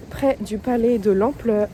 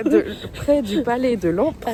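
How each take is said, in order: First: "l'ampleur" said instead of "l'empereur", tongue tripping; stumble, saying "l'ampleur" for "l'empereur"; slip of the tongue. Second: "l'empereur" finally said right, with a laugh; laughing correction to "l'empereur"; corrected word. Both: Real, not acted. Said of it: "T'arrives pas à parler aujourd'hui".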